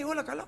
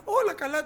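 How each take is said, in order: First: Much higher rising question; asking question. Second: Much higher and louder falling reply; reassuring answer. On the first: Gehazi runs to ask the woman if all is well. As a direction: ask it brightly. Gehazi asks, she answers. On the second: The woman answers Gehazi that all is well, higher and firm. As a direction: insist all is fine. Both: Retold or imitated.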